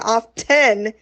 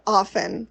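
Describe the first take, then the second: First: The T sound in the middle is pronounced. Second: The T sound in the middle is silent. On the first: "when I say often" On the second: "Like there's no T anywhere in the word"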